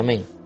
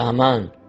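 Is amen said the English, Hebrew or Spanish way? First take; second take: English; Hebrew. First: It is said the way English speakers say it. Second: It is said the way Hebrew speakers say it. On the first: "En inglés se dice" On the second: "un hebreo diría"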